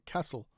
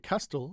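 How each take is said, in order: First: The T sound is silent. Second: The T sound is clearly pronounced. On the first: The speaker calls it right. "we say" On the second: The speaker calls it wrong. "We don't say"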